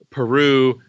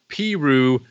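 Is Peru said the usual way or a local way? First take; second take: usual; local. First: It is said the usual, familiar way. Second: It is said in a different, local way. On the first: "towns spelled" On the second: "They are pronounced"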